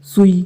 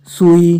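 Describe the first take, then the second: First: सुई with a quick "su"; short u. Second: सुई with a long, louder "soo". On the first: Teacher showing the short u in सुई. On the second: Teacher contrasting spellings, long oo in सुई. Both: Shown as a demonstration. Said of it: "छोटे ऊ और बड़े ऊ".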